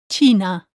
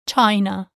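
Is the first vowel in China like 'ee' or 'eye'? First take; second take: ee; eye. First: The first vowel sounds like 'ee'. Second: The first vowel sounds like 'eye'. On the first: The speaker calls it right. "In Spanish, the word China is China. With an E" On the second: The speaker calls it wrong. "Make sure you never say the Spanish I, like in the English word"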